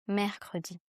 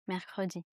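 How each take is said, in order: First: Each vowel is articulated very carefully and distinctly. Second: The vowels are articulated in a relaxed, casual way. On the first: "Donc là, j'articule beaucoup" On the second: "Mais si je dis, ah, on se voit mercredi"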